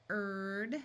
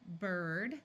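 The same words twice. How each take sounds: Both takes have the same delivery.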